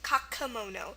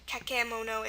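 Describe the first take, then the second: First: The middle vowel is a weak uh sound. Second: The middle vowel is a clear eh sound. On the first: The speaker calls it right. "our E in the middle here makes a schwa sound, the uh sound" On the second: The speaker calls it wrong. "or kakemono"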